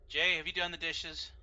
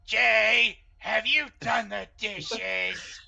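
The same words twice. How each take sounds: First: It is said in their normal voice. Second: It is said in a put-on wife voice.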